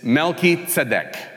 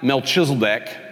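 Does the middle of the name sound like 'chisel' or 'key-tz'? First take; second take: key-tz; chisel. First: The name splits as 'Melchi' plus 'tzedek'. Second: The middle sounds like 'chisel', then 'deck'. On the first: The speaker calls it right. "It's Melchizedek" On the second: The speaker calls it wrong. "not Melchizedek, as if he's chiseling decks"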